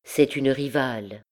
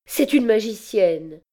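First: Bitter inner voice. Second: High, distressed outburst; pained accusation. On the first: Her heart tells her the truth, bitterly. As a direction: state it inwardly, without outcry. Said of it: "une voix plus amère encore". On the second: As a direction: accuse her in anguish, pitch raised. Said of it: "balbutia-t-elle douloureusement". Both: A narrator's reading.

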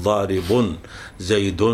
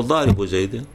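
First: ضارب زيد said apart as "daaribun zaydun"; ضارب with a full nunated -un, then زيد separately; tanween sounded. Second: ضارب زيد joined as "daaribu zaydin"; ضارب ending in short -u, linked to زيد ending in -in; tanween dropped. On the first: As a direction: sound the -un ending on both ضارب and زيد, with a pause between. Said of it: "بحذف التنوين في الاسم المفرد، بدل ما نقول". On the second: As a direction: run ضارب into زيد with a bare -u, no n. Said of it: "بحذف التنوين". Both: Shown as a demonstration.

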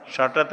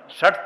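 First: षटत with an extra t sound at the end; wrong षटत. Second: षट cut clean on the ट with no त after; correct षट. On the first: Teacher shows the wrong षटत with a trailing t. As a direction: say षटत wrongly, adding the final त. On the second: Teacher models the correct षट to students. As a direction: say षट ending sharply on ट. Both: Shown as a demonstration. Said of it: "षटत नहीं".

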